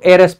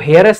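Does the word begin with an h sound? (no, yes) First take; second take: no; yes. First: The word starts with a vowel, h silent. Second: The word starts with an audible h sound. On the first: The speaker calls it right. "इसको एयरएस पढ़ते हैं" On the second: The speaker calls it wrong. "इसको हेयरएस नहीं पढ़ते हैं"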